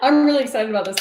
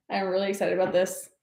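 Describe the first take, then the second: First: Excited. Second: Said in the usual way. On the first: Real, not acted. Repeats excitement twice.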